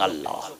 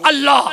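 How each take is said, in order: First: The word is said softly and quietly. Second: The word is said very loudly and forcefully. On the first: It is said with humble respect. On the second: It is said brashly, startling the listener.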